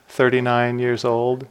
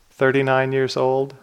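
No difference in how they are said.

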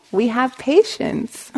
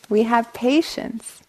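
The two takes are said the same way.

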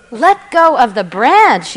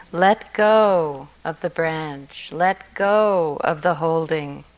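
First: Higher, louder incredulous yell; distraught yell. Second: Slow, calm gentle urging; gentle advice. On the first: A narrator's reading. Distraught man yells God's words back, incredulous. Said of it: "yelled the distraught man". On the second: Shown as a demonstration. Teacher repeats the story's advice to students, gentle and slow.

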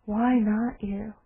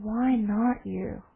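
First: Quiet repeat. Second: Calm question. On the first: Shown as a demonstration. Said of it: "Can you imagine?". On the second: Retold or imitated. Old man answers gently.

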